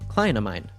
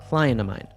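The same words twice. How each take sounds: First: The T drops and 'of' becomes a schwa. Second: The T drops and 'of' becomes a schwa.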